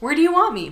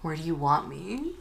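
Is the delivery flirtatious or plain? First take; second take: plain; flirtatious. First: It is said in a plain, matter-of-fact tone. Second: It is said in a seductive, suggestive tone. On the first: This is how he actually said it. "He was like" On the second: This is how she imagined it. "He didn't say it like that"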